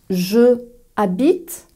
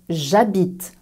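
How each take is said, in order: First: The pronoun keeps its vowel before habite. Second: The pronoun loses its vowel before habite. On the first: The speaker calls it wrong. "non, non, non" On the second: The speaker calls it right. "avec apostrophe"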